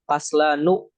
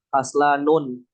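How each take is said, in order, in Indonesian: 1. Kata ini berakhir dengan vokal biasa, tanpa n di akhir. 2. Kata ini berakhir dengan tambahan bunyi n di akhir. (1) "Kenapa dia tidak bertanwin?" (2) "atau bertanwin"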